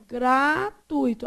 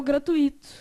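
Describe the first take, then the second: First: GRATUITO drawn out as gra-TUI-to, UI in one syllable; slow syllable split. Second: GRATUITO said gra-tu-I-to, stress on the I; separated U-I. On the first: Teacher showing how the student read it, slow gra-TUI-to. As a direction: say "Gratuito" slowly, keeping TUI together. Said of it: "como é que você leu?". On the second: Teacher showing the student's wrong split, gra-tu-I-to. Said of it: "você foi lá e separou o gratuito". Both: Shown as a demonstration.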